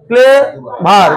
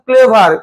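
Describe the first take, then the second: First: ক্লেভার drawn out in two slow beats, ক্লে-ভার; split into syllables. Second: Said in the usual way. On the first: Shown as a demonstration. Teacher counts beats for students, ক্লেভার slowly split in two. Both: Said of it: "কবার লাগছে".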